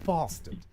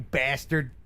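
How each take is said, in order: First: It is said in a British accent. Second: It is said in an American accent. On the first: It sounds gentle. "instead of" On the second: It sounds like a real insult. "doesn't it sound worse in an American accent?"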